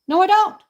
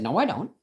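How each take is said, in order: First: "No, I don't" flung out higher and louder; refusing the officer, raised defiant voice. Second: Said in the usual way. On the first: Retold or imitated. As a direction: push back hard on "don't".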